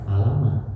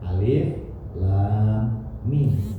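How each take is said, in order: First: The letters run together as one word. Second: Each letter is said by its full name. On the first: The speaker calls it wrong. "bukan alama" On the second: The speaker calls it right. "Bacanya disebutkan hurufnya"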